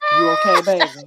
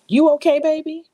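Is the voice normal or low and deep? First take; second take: low; normal. First: It is said in a low, deep, suggestive voice. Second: It is said in a plain, professional voice.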